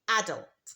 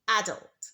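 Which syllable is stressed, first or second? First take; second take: first; first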